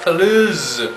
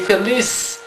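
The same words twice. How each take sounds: First: The word ends with a z sound. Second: The word ends with an s sound. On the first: The speaker calls it wrong. "and not" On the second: The speaker calls it right. "we pronounce S"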